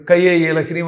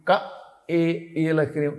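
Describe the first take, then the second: First: క ఏ run together as కయ్యే with a y glide; wrongly fused syllables. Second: క, pause, pure ఏ, then ఈల హ్రీం; correct separated syllables. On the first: Retold or imitated. Guru mimics the wrong reader, gluing క and ఏ into కయ్యే. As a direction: say కయ్యే ఈల హ్రీం joined, no gap after క. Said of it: "అది యా, యా చదువుతున్నాడు వాడు". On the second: Shown as a demonstration. Guru demonstrates proper mantra, క and ఏ each sounded separately. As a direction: keep క and ఏ apart, softly and distinctly. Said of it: "ఏ అనాలి".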